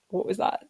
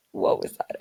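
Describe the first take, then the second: First: Said in the usual way. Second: Startled whisper, no voice at all. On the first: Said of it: "Oh my God, that was so weird". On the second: Real, not acted. Startled by a noise while recording, she whispers. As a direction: hush it, as if a strange noise just went off outside.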